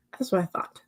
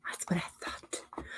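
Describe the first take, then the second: First: Whispered under the breath; soft whisper. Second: Much softer, slower whispered echo; fainter whisper. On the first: Streamer whispering back to the chat, soft whisper. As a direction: breathe it half to yourself. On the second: Streamer echoing her own remark, fainter slower whisper. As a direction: let it fade to a faint slow whisper. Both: Real, not acted.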